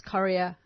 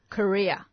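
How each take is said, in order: First: "Korea" as KORR-ee-a; first variant pronunciation. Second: "Korea" as kuh-REE-a; stressed REE in "Korea"; second variant pronunciation. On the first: Co-host reporting what people say, "Korea" said KORR-ee-a. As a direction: stress on first syllable of "Korea". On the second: Co-host reporting what people say, "Korea" said kuh-REE-a. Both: Shown as a demonstration. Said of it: "I've heard people pronounce".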